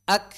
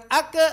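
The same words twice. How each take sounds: First: "Ak" ending in a puff of air; voiceless aspirated k closing "Ak"; breath release on kaf. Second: "ak" with an extra vowel, like "ake"; drawn-out "ak-eh" bounce; wrong voiced release. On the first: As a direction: release the k of "Ak" with breath only, no vowel. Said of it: "embusan napas". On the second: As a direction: add a voiced schwa after the k of "ak". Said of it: "Nah, bukan ak". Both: Shown as a demonstration.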